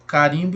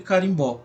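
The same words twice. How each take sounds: First: "Carimbo" stressed on the middle syllable RIM; stress on second syllable. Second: "carimbó" stressed on the final BÓ; stress on last syllable. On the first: ("Carimbo" com acento tônico no RIM) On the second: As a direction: land the weight on BÓ in "carimbó". ("carimbó" com acento tônico no BÓ final) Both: Shown as a demonstration. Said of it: "marca a posição diferente da sílaba tônica".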